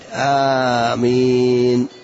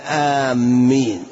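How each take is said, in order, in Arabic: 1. الحركة الأولى طويلة والميم مفردة. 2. صوت الميم مشدّد وممتد. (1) "بالتخفيف مع المد آمين هكذا" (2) "ولا نشدد الميم فنقول آمين"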